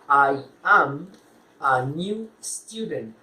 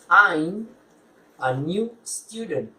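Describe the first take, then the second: First: The start is two separate full words. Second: The start merges into one contracted syllable.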